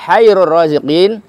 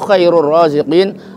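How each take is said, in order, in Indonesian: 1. Kata pertama dimulai dengan bunyi h yang berdesah. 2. Kata pertama dimulai dengan bunyi kh yang kasar. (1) "Allah itu paling bingung-bingungnya para pembagi rezeki" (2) "Allah itu sebaik-baik yang membagi-bagi rezeki"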